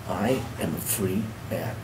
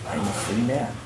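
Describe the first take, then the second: First: "I am a free man" slow and soft, "I am" uncontracted; slow, deliberate repeat. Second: Softly, letting it sink in; quiet, awed words to oneself; hushed realization. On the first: Ex-prisoner telling himself "I am a free man", slow and deliberate. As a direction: weigh each word of "I am a free man", softly. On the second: Retold or imitated. Ex-prisoner realizing he is out, hushed. Realizing freedom in the store doorway.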